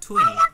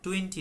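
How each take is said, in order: First: The t sound after the n is dropped. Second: The t sound after the n is pronounced. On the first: The speaker calls it right. "তো আমরা টোয়েনি বলবো" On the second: The speaker calls it wrong. "টোয়েন্টি না"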